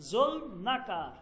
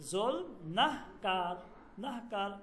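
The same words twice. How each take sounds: First: Said in the usual way. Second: নাহকার said slowly with the হ sounded clearly; careful slow pronunciation. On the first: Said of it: "এখানে নুন". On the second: Shown as a demonstration. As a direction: spell out নাহকার slowly so the হ is heard. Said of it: "এখানে নুন ... আর হচ্ছে হে". (নাহকার ধীরে, হ স্পষ্ট করে উচ্চারণ)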